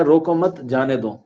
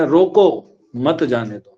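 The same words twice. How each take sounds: First: Telling someone to let go, break after مت; pause after مت. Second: Drawn-out rising روکو, pause, then مت جانے دو falling; pause after روکو. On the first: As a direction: keep روکو مت together, then let جانے دو fall. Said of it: "پہلے میں کہہ رہا ہے". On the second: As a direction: set روکو apart as a command, then مت جانے دو as one phrase. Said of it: "دوسرے میں". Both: Shown as a demonstration.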